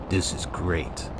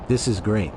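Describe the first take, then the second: First: Lower, softer brooding "This is great."; low deadpan voice. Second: Said in the usual way. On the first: Shown as a demonstration. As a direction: redo it low and quiet, deadpan.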